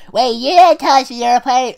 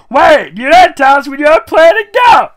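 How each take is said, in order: First: High loud excited pony voice; high-pitched, high-energy Pinkie. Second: Much higher and louder excited squeal; high-pitched, high-energy Pinkie shout. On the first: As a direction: squeak it out full of energy. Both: Acted. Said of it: "high-pitched, high-energy voice that she talks in".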